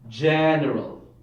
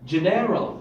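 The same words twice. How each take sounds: First: The stress is on the first syllable. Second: The stress is on the second syllable. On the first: The speaker calls it right. "maybe the first syllable" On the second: The speaker calls it wrong. "if the stress is on the second syllable"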